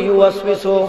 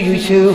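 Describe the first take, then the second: First: The word is said in full, every syllable. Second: The word is clipped to two short syllables. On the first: The speaker calls it right. "আমি কই ইউওয়াসওয়িসু" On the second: The speaker calls it wrong. "চাচা কই ইউসু ইউসু"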